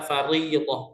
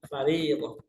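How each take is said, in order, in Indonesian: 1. r dibaca tebal dan berat. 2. r dibaca tipis dan ringan. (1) "Tidak boleh dibaca" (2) "Karena ini hukumnya tarqiq"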